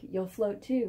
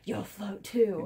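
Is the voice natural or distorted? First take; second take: natural; distorted. First: It is said in a natural voice. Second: It is said in a distorted, creepy voice.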